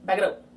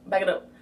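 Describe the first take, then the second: No difference in how they are said.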